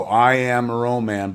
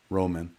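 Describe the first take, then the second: First: "Roman" drawn out slowly, second syllable like "man"; name sounded out. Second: Said in the usual way. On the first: Shown as a demonstration. Host puzzling out a tweeter's handle, "Roman" sounded out as row-MAN. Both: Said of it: "but spelled phonetically".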